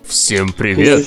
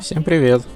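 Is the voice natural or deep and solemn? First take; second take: solemn; natural. First: It is said in a deeper, solemn voice. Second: It is said in his normal voice.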